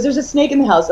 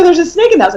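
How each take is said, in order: First: Said in the usual way. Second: Alarmed echo. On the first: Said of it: "He goes". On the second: Retold or imitated. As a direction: echo the news in disbelief. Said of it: "And I go".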